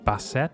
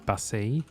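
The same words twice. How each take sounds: First: The name has an English pronunciation. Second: The name has a French pronunciation.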